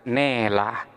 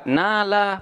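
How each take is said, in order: First: The long vowel is tilted toward e. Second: The long vowel is a plain open a.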